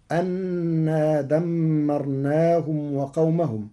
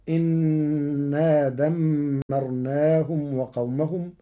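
First: أنا said anna, hamza with a; slow chant, أنا as anna; common reading of أنا. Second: إنا said inna, hamza with i; slow chant, إنا as inna; Warsh reading of إنا. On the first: Teacher recites the usual form, أنا as anna. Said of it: "قرأ ورش كلمة أنا". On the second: Teacher shows Warsh, إنا as inna. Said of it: "بكسر الهمزة". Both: Shown as a demonstration.

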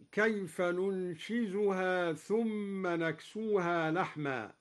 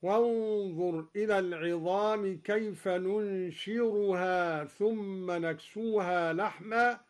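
First: Said in the usual way. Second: ننشرها with a clear r in place of z; slow, ننشرها ringing with r; ra instead of zay. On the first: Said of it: "قرأ الدوري بالراء بدل الزاي". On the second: Shown as a demonstration. Teacher showing Duri's ra reading. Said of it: "هكذا".

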